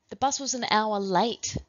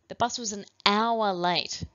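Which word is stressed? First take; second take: late; hour. First: The word late is stressed. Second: The word hour is stressed. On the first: "then late" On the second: "then hour"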